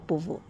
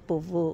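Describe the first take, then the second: No difference in how they are said.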